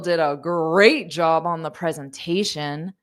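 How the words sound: It is said with a mocking, sarcastic tone. The praise means the opposite. The speaker calls it right. "You would say something like, oh"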